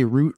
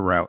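First: Route rhyming with boot; route as "root". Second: Route rhyming with out; route as "rowt". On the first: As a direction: say route with a long oo. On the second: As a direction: say route with an ow sound. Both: Shown as a demonstration. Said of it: "Do you say route or route?".

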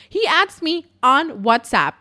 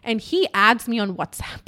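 First: "He adds me on WhatsApp" slow, higher, each part punched; pointed repeat. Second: Said in the usual way. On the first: Real, not acted. Storyteller underlines unprofessional move, slow emphatic "He adds me on WhatsApp". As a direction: spell out "He adds me on WhatsApp" deliberately, with emphatic pauses.

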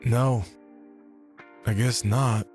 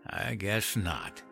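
First: Chastened, higher-pitched reply; sheepish admission after a scolding; meek. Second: Put-on slow, softer old man's echo; scornful echo. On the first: Acted. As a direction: concede in small, halting phrases. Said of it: "Meekly, I answered". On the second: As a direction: repeat it drily, drawing it out. Henry echoes the meek concession.

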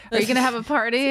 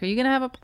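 First: Said in the usual way. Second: With hiccups. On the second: Real, not acted. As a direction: cut off by a hiccup. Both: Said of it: "whoop, the hiccup".

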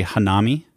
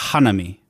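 First: Hanami as ha-NA-mi, middle syllable stressed; stress on second-to-last syllable. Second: Hanami as HA-na-mi, first syllable stressed. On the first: Podcaster showing co-host a Western reading, hanami stressed on NA. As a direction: lean on the NA in hanami, English style. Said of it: "emphasis on the second to last syllable". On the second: Podcaster correcting co-host on Japanese, hanami stressed on HA. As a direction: hit the HA in hanami, then let it fall. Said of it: "emphasis either on the first or the second". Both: Shown as a demonstration.

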